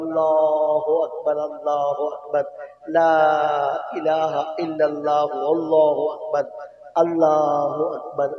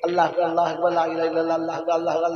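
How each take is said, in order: First: It is said slowly with pauses between phrases. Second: It is rushed together without pauses between phrases. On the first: The speaker calls it right. "থেমে থেমে বলা উত্তম" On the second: The speaker calls it wrong. "আমরা তো সেই মানে সেই সবিনা খতমের মতো করে দিই"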